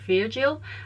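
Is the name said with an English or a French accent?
French. The name is said with a French accent. The speaker calls it right. "with the French pronunciation it's more like"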